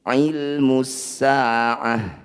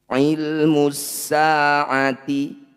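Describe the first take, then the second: First: The last word ends with a silent h sound. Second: The last word ends with a t sound and vowel. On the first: The reading stops at this word. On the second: The reading continues without stopping.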